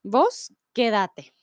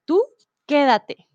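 First: "Vos quédate" slow, stress moved to que-DA-te; "Vos" leading, then "quédate" stressed on the middle syllable; vos form. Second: "quédate" stressed on QUÉ, a touch louder; "quédate" with its opening syllable leading; tú form. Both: Shown as a demonstration. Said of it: "Miren que hay una diferencia".

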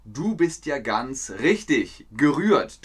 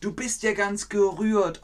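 First: Said in the usual way. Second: High, touched exclamation; moved, high voice. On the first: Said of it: "Jetzt brauchen wir das Adjektiv". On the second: Shown as a demonstration. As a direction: sound moved and a little high. Teacher acts touched example.

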